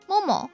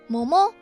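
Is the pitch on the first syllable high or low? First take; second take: high; low. First: The first syllable is high, then pitch falls. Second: The first syllable is low, then pitch rises. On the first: It means thigh. "もも大腿啊" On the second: It means peach. "もも桃子"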